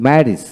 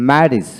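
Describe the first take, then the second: No difference in how they are said.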